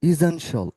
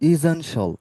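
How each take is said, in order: Both takes have the same delivery.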